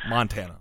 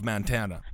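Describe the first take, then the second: First: Montana with an open "Mon"; corrected Montana. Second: Montana said as "Man-tana"; mispronounced Montana. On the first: Host correcting own slip, Montana with an open "Mon". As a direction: say Montana with "mon", not "man", first. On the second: Host asking about state Democrats, Montana slipped into "Man-tana". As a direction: say Montana with "man" as its first syllable. Slip, then corrects the name. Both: Real, not acted.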